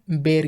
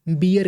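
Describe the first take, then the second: First: बेर said as one syllable, "bair"; single-syllable बेर, rhyming with air; British-style pronunciation. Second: बियर said in two syllables, bi-yar; Indian-English बियर, "bee-yar"; Indian pronunciation. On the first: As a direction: say बेर with one open vowel, no ee glide. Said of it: "British pronunciation है बेर की". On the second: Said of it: "Indian accent में". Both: Shown as a demonstration.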